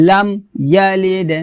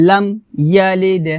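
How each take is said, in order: No difference in how they are said.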